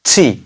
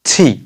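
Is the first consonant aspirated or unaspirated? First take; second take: aspirated; aspirated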